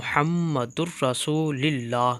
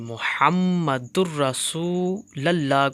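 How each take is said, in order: First: The vowel after 'Rasul' is 'i'. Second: The vowel after 'Rasul' is 'a'. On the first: "ज़ेर की अदायगी से" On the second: "लाम पर ज़बर"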